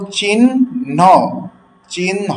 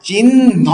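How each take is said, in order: First: চিহ্ন said the wrong way, as rejected; mock the mistaken চিহ্ন; wrong pronunciation. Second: চিহ্ন said as chinno, drawn-out double n; correct pronunciation. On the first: Bangla teacher shows students the wrong way, mock. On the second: Teacher gives students the correct form, clear demo. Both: Shown as a demonstration. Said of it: "নয়, চিহ্ন নয়".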